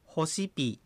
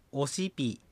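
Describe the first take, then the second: First: ホシピ with an audible initial h; h pronounced. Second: オシピ with the initial h silent; h dropped. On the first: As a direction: say ホシピ starting on a light "ho". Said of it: "ホシピともオシピ". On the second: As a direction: start straight on the vowel o in オシピ. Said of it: "非常に弱いか、落ちてしまいます". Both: Shown as a demonstration.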